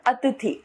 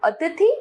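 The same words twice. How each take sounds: First: Said in the usual way. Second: अतिथि as a mistaken form, ending raised; wrong pronunciation. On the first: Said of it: "इसका शुद्ध रूप". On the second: Shown as a demonstration. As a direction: show the faulty अतिथि with a rising end. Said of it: "अशुद्ध रूप".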